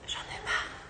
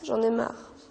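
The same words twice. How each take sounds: First: It is whispered. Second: It is said loudly.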